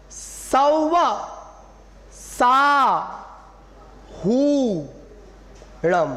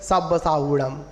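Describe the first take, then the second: First: सौवा, सा, हुड़म very slow with pauses, हू held long; high सौवा, then stretch the हू of हुड़म. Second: सब साहुड़म run together, ब for व; low, joined-up सब साहुड़म with unstretched हु; common mispronunciation. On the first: Shown as a demonstration. Teacher modelling correct form, slow separated सौवा सा हुड़म. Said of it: "उसी प्रकार". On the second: Retold or imitated. Teacher imitating what people usually say, run-together सब साहुड़म. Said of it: "हम लोग क्या बोल देते हैं?".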